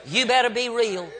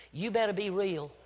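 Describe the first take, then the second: First: "You better be real" pushed out higher and firmly; emphatic repeat. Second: Softer, measured warning; quiet admonition. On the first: Preacher presses parents, "You better be real" said forcefully. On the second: Preacher cautions parents to be real, softly and firmly. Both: Real, not acted.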